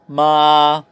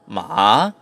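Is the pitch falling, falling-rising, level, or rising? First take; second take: level; falling-rising. First: The pitch starts high and stays level. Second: The pitch dips down and then rises. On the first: It means mother. "first tone ... pitch mo starts high and stays high" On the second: It means horse. "third tone is the falling rising tone"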